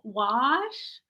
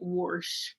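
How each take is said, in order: First: It is said without an r, city style. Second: It is said with an r, country style.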